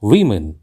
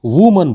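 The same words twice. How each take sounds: First: वीमेन said as "VI-min"; correct pronunciation. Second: वुमन said as "WOO-man"; common mispronunciation. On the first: Teacher gives learners the correct word, carefully pronounced. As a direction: say वीमेन with i in both syllables. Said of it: "इसका सही उच्चारण है". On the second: Teacher shows learners the common mistake, mispronounced. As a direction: say वुमन with oo in the first syllable. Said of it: "हम इसको". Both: Shown as a demonstration.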